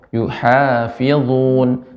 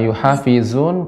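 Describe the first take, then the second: First: The z sound is heavy and thick. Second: The z sound is light and thin. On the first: The speaker calls it right. "lebih tebal lagi" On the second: The speaker calls it wrong. "kurang tebal"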